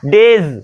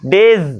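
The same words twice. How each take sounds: No difference in how they are said.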